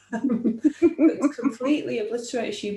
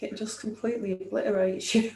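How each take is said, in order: First: Laughing through the words. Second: Said in the usual way. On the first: Real, not acted. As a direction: let a real laugh break in. Repeated line, laughing through it.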